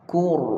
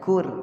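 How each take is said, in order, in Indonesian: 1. Bunyi r itu tebal dan berat. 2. Bunyi r itu tipis dan ringan. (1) "Kur, tebal" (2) "jangan kur"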